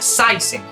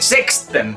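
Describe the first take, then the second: First: It is said with an ai diphthong. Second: It is said with a k sound. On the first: The speaker calls it right. "se pronuncia Saisen" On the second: The speaker calls it wrong. "No se pronuncia sexten"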